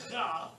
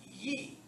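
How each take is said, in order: First: The consonant is a hard, guttural g sound. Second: The consonant is a soft y-like sound. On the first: The speaker calls it wrong. "It wouldn't be ga" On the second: The speaker calls it right. "it would be ye. It's soft"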